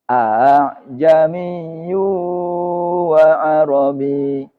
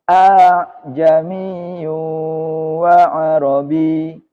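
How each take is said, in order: The two takes are said the same way.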